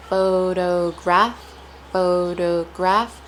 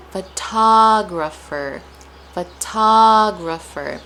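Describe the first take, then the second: First: "photograph" slowly as pho-do-graph, lifting at the end; deliberate "photograph" with a rising finish; syllable stress demo. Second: "photographer" with TA loud and long; slow pho-TA-grapher; stress on TA. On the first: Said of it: "we stress the do in photograph". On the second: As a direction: punch the second syllable of "photographer". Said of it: "The stress is placed on ta". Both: Shown as a demonstration.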